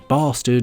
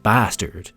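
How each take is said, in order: First: It is said in a British accent. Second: It is said in an American accent. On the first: "English accents tend to say bastard" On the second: "instead of bastard"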